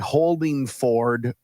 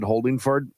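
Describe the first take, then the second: First: The last syllable is a full, clear 'ford'. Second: The last syllable is a quick, reduced 'ferd'. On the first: The speaker calls it right. "I have to make sure I say Holdingford" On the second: The speaker calls it wrong. "I said it very quickly on the air"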